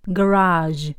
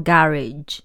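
First: American "garage", stress on the second syllable; American pronunciation. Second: British "garage", stress on the first syllable; British pronunciation. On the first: Teacher echoing the American recording, American pronunciation. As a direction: say "garage" as guh-RAHZH, American style. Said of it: "我都快忘了美式要怎么说". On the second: Teacher contrasting what British people say, British pronunciation. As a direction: say "garage" as GA-ridge, British style. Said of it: "英国人则是说garage". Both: Shown as a demonstration.

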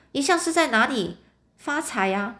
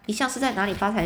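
First: Rising, courtly inquiry in a changed voice; a put-on old-fashioned greeting. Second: Said in the usual way. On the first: Short red-haired clerk politely asks the pawnbroker his trade, rising. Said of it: "啊，叶尔逊先生". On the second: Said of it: "应该问说你是在做什么工作的".

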